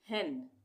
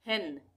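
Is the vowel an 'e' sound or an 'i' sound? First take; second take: e sound; e sound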